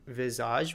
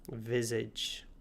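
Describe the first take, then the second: First: The word is said with French pronunciation. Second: The word is said with English pronunciation. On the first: "comes from the French word visage" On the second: "in English, we pronounce it visage"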